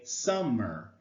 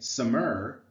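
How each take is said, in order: First: The stress is on the first syllable. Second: The stress is on the second syllable. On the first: The speaker calls it right. "We say summer" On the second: The speaker calls it wrong. "we don't say summer"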